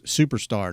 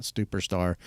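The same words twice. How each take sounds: First: Said in the usual way. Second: "superstar" said as STUPER-star, with an added T; slipped "stuperstar". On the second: Shown as a demonstration. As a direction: put a T after the first S in "superstar". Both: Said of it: "not superstar".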